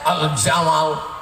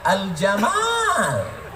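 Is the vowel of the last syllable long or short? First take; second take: short; long. First: The vowel of the last syllable is short. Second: The vowel of the last syllable is long. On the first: It means the camel. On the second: It is the name.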